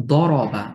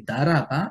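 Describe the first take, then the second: First: দরবা with a thick, heavy দ and a dark vowel; heavy Arabic letter. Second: দারাবা with a thin দ and open আ sounds; light letter, wrong. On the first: Tajweed teacher demonstrating the correct heavy দরবা. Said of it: "আমি যদি দরবা না বলে". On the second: Teacher showing the mistaken light দারাবা to students. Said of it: "ভুল উচ্চারণ হবে". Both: Shown as a demonstration.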